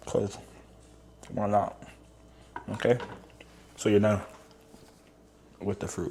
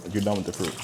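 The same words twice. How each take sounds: First: Talking while chewing; words through a mouthful of banana; mouth full. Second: Said in the usual way. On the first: Real, not acted. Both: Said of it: "excuse me, I'm eating".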